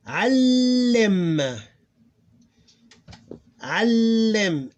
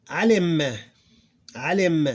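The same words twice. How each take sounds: First: Alim with a long loud l, pitched high; held double l. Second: Said in the usual way. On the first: Shown as a demonstration. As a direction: stretch the l in alim before releasing into lim. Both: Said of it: "That's how we pronounce it".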